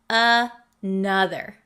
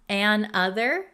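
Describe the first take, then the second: First: The two parts run together as one word. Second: There is a small break between the two parts.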